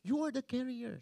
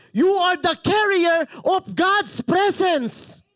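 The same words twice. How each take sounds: First: Much softer, toned-down delivery; hushed, restrained restatement; quiet repeat. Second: High, slow, loud proclamation; impassioned preacher's roar; passionate shouting. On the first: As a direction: say it softly, as if backing off a shout. Soft repeat after shouting. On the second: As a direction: shout it slowly to the whole church. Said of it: "why are you shouting, Pastor?". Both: Real, not acted.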